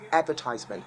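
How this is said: It is said in a Nigerian accent. "that's what you get to hear here in Nigeria"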